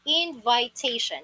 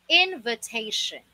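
First: The second syllable has an 'eye' vowel. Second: The second syllable has a weak 'uh' vowel. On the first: The speaker calls it wrong. "ang root word ay itong invite" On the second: The speaker calls it right. "The correct pronunciation for this is invitation. Parang tunog letter U siya"

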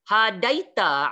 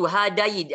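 First: The word ends with a short a vowel. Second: The word ends on a bare t sound. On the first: The reader carries on without stopping. "Tapi kalau tuan-tuan baca" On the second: The reader stops at this word. "Kita waqaf tuan-tuan"

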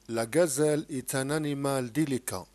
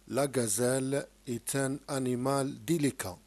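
First: The sentence is read at a faster pace. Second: The sentence is read at a slower pace.

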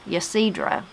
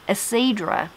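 First: The name begins with a pronounced Y sound. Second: The name begins without any Y sound. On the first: The speaker calls it wrong. "I was saying it wrong in my head" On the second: The speaker calls it right. "it is pronounced with the Y silent"

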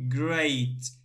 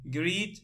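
First: The vowel is an 'ay' sound. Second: The vowel is a long 'ee' sound. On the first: The speaker calls it right. "And here we say a" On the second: The speaker calls it wrong. "not greet, no"

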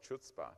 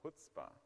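First: The word begins with a 'ch' sound. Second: The word begins with an 'h' sound. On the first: The speaker calls it wrong. "I was calling it Chutzpah" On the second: The speaker calls it right. "but it's actually Chutzpah"

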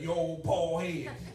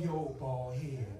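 First: The tone is scornful and contemptuous. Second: The tone is warm and affectionate. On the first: Things are going badly between the spouses. "then that bald head becomes scornful" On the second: Everything is going well between the spouses. "Before, bald head was cute"

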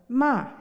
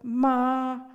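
First: The word is said in the fourth tone. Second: The word is said in the first tone. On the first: It is a reproach. "in the fourth tone" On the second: It means mother. "when spoken in the first tone"

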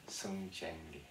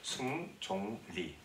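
First: The middle syllable is said as 'jaeng'. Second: The middle syllable is said as 'jong'. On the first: This is the name as a foreign listener says it. The speaker calls it wrong. "내 이름을 아무리 발음해도 안 된다는 거야" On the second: This is the name as its owner says it. The speaker calls it right. "내 이름은 승종리라고"

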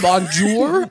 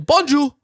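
First: The final R is clearly sounded. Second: The final R is dropped. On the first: The speaker calls it wrong. "I learned that you don't say bonjour" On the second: The speaker calls it right. "I learned that you say bonjour"

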